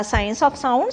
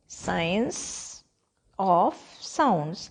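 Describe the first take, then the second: First: Said in the usual way. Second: "Science... of... sounds", long pauses between words; word-by-word dictation. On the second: Shown as a demonstration. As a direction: dictate "Science of sounds" one word at a time, softly starting. ("Science of sounds" को रुक-रुक कर, एक-एक शब्द बोलें)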